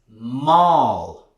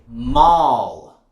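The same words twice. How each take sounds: First: The vowel is wide and open. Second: The same.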